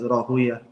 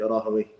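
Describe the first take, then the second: First: The name ends with an '-uya' sound. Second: The name ends with a '-wayh' sound. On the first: This is how hadith scholars say the name. "the scholars of hadith would pronounce their name as Rahuya" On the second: This is how Arabic language scholars say the name. "the scholars of, of Arabic language would pronounce it Rahawayh"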